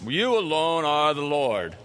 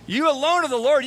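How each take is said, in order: First: The voice is calm, solemn and churchy. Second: The voice is urgent, frightened and cracking. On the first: It sounds like formal religious language. The speaker calls it wrong. "He is not going to be speaking with a religious voice" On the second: The speaker is terrified and desperate. The speaker calls it right. "his voice is probably cracking"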